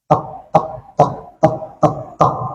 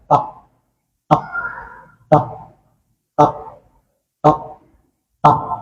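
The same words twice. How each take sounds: First: The six beats are counted quickly. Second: The six beats are counted slowly. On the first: It marks the length for a quick recitation. "Untuk bacaan yang cepat" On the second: It marks the length for a slow recitation. "kalau bacaannya yang tadi yang agak pelan"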